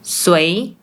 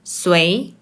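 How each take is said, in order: First: It is said in Malaysian Mandarin. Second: It is said in Malaysian Mandarin.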